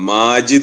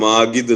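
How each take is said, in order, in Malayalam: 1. മധ്യ വ്യഞ്ജനം മൃദുവായ j ശബ്ദമാണ്. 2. മധ്യ വ്യഞ്ജനം കടുപ്പമുള്ള g ശബ്ദമാണ്. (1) "എന്നുള്ളതിന്" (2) "ജാക്ക് പകരം ഗാ"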